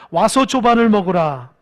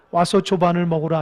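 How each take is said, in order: First: Louder, leading "조반을" with a falling stress; call to repeat. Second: Said in the usual way. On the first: Shown as a demonstration. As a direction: proclaim it so they echo it back. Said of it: "따라해보세요". (따라하도록 크게 "조반을"을 힘주어) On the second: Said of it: "시작".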